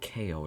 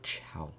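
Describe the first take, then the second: First: It is said as two letters, K O. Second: It is said as one syllable, chow. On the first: The speaker calls it wrong. "It's not pronounced like K O" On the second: The speaker calls it right. "it's pronounced like chow"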